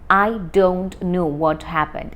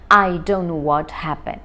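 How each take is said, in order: First: Each word is said fully and separately. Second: The words are run together quickly.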